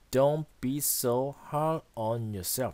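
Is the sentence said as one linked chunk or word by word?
word by word. Each word is said separately with even weight. The speaker calls it wrong. "이렇게 읽지 않죠?"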